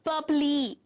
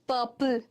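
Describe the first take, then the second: First: The word ends with an added ee vowel. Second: The word ends with an l sound. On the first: The speaker calls it wrong. "It's not that, right?" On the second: The speaker calls it right. "L is getting stressed, not E"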